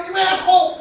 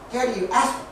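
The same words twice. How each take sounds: First: High mock yell; retold yell. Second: Lightly imitated toddler barely able to talk; hint of a tiny child's halting speech; Lindsay. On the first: Driver yelling out the window when cut off, mock angry. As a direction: shout it like road rage. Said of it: "they yell at the window". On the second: Two-year-old to dad at dinner, lightly imitated baby talk. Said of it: "Lindsay's just barely able to talk".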